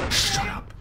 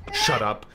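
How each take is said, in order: First: High, piercing "shut up"; sudden shriek. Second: Said in the usual way. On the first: Real, not acted. Annoyed at noisy kid.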